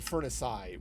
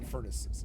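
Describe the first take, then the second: First: The word ends with an 'eye' sound. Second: The word ends with a plain 'iz' sound.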